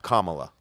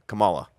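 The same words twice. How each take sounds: First: The first syllable sounds like 'com'. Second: The first syllable does not sound like 'com'. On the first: The speaker calls it right. "Think of dot com" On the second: The speaker calls it wrong. "Donald Trump likes to say Kamala"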